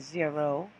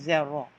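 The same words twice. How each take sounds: First: It is pronounced with English sounds. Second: It is pronounced with French sounds. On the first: "we say zero" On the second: "they say zero"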